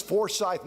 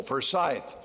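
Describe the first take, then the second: First: Forsyth said with the stress on the first syllable, FOR-syth, the wrong way; the wrong reading, FOR-syth, stress on the first syllable. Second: Forsyth with the stress on the second syllable, fer-SYTH, first vowel reduced; correct Forsyth. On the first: Retold or imitated. A newsroom colleague asks about Forsyth, saying FOR-syth with the wrong first-syllable stress. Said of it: "No, accent on the second syllable".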